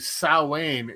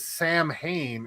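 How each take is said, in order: First: It is said differently from 'Sam Hain'. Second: It is said like 'Sam Hain', as spelled. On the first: The speaker calls it right. "It's actually" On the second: The speaker calls it wrong. "looks like it's pronounced as"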